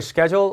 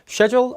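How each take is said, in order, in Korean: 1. 미국식 억양으로 발음합니다. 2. 영국식 억양으로 발음합니다.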